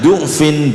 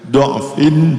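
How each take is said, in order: First: The first vowel is a 'u' sound. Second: The first vowel is an 'a' sound. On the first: "boleh dibaca du'fin" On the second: "ini boleh dibaca do'"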